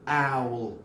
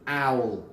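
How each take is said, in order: No difference in how they are said.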